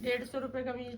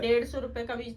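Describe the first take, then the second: First: The call is said softly, at low volume. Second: The call is said loudly, at high volume. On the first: "इतनी हल्की, इतनी तो सुनाई भी नहीं देगी" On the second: "थोड़ी सी तेज की तो बोल"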